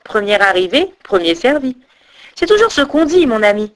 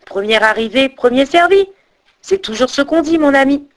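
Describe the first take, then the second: First: Mildly mocking crane, sing-song rise; understated smug jibe. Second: Gleeful lilt, rising higher as it goes; half-chant it, pleased with yourself; lightly crowing singsong taunt; delighted singsong. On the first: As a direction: tease your companion lightly. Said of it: "elle se moqua de son compagnon". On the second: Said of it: "chantonna la grue ravie". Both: A narrator's reading.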